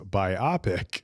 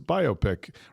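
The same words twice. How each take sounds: First: The stress falls on the 'pic' part. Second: The stress falls on the 'bio' part. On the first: The speaker calls it wrong. "People often mispronounce it as biopic" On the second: The speaker calls it right. "the correct pronunciation is biopic. Rhymes with myopic... the emphasis is on the bio part"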